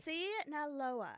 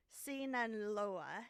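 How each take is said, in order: First: SINALOA slow and firm, falling at the end; decisive, stretched-out SINALOA; confident. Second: Slow, questioning attempt at SINALOA; tentative SINALOA, ending like a question; unsure. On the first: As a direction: commit to SINALOA, higher start and falling finish. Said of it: "Just, just say it confidently". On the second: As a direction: sound out SINALOA haltingly, rising at the end. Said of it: "just say it confidently". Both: Real, not acted.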